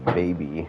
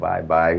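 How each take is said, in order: First: The name sounds like the word baby. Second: The name sounds like the words bye bye. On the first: The speaker calls it right. "He told me it is Baby" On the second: The speaker calls it wrong. "I was pronouncing this wrong"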